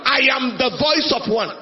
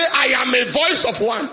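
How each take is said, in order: First: "the" pressed firmly before voice; stress on the. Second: "a" said lightly, no weight on the article; the misquote with a throwaway "a"; wrong reading. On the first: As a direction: correct it by leaning on "the". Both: Shown as a demonstration. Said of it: "He didn't say".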